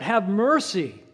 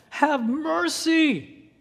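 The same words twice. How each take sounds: First: Louder, higher plea for mercy; crying out. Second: Much higher and louder, stretched very slowly; desperate cry. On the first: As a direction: call out over the crowd. Earlier plainer plea. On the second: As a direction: wail it out as a last hope. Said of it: "in desperation". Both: Acted.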